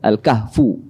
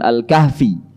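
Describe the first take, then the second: First: The word ends with a 'u' vowel. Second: The word ends with an 'i' vowel. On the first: The speaker calls it right. "yang benar membacanya adalah Al-Kahf, ya, Al-Kahfu" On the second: The speaker calls it wrong. "bukan Al-Kahfi"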